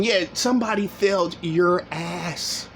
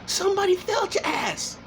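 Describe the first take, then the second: First: Said in the usual way. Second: Somebody jumps much higher, then falls; high taunting echo of the line; mocking high repeat. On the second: Real, not acted. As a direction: throw it back in a high sneering pitch.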